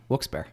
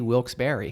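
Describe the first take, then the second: First: The end of the name is reduced. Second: The end is fully said, like Barry. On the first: "right now" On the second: "if I'm not lazy, ... because it was Wilkes and Barry"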